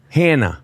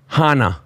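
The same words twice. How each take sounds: First: The name is said the common way. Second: The name is said the Jewish way. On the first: "Most people call me Hannah"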